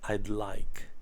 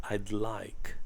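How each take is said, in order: No difference in how they are said.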